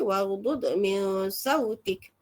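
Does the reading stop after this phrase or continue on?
stops. The phrase ends in a full stop, final vowel dropped. The reader pauses here to make memorizing easier. "jadi nak berhenti"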